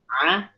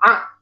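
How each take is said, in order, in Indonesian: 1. Bunyinya lembut dan halus. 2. Bunyinya dikeluarkan dengan sentakan. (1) "membunyikan huruf I itu cukup lembut" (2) "terlalu disentak"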